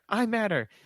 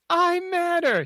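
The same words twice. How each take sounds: First: It is said at a normal, softer volume. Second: It is said at a louder volume.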